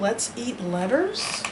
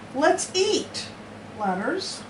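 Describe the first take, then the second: First: It is said straight through with no pause. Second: There is a pause after 'eat' before 'letters'. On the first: The letters are the food being eaten. The speaker calls it wrong. "Do you think that's what they were saying?" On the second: The letters are being spoken to. The speaker calls it right. "Since they were talking to the letters, let's eat letters makes more sense"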